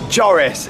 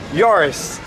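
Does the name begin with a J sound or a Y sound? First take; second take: J sound; Y sound. First: The name begins with a J sound. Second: The name begins with a Y sound. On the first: The speaker calls it wrong. "It's not Joris" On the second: The speaker calls it right. "I'm saying it Yoris with a Y"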